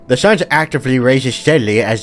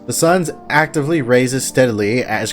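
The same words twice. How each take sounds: First: It is read in a put-on nerdy voice. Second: It is read in a plain, ordinary voice.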